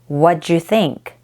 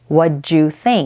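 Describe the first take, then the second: First: The word do is reduced almost to nothing. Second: The same.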